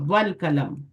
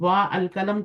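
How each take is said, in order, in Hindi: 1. आर्टिकल का स्वर गिरा दिया जाता है और वह जुड़ जाता है। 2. आर्टिकल का स्वर रखा जाता है और वह अलग से बोला जाता है। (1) "जब भी मिलाएं, अपनी हरकत ड्रॉप कर दे, वो वसली होगा" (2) "तो नहीं पढ़ेंगे ना"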